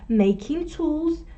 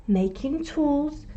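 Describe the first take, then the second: No difference in how they are said.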